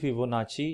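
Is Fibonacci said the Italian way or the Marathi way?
Italian. The name is said the Italian way. The speaker calls it right. "it is actually Fibonacci in Italian"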